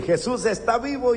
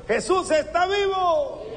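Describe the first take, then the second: First: Said in the usual way. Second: Rousing call. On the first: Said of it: "yo voy a decir". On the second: Shown as a demonstration. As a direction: call it out for the congregation to answer. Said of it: "A ver".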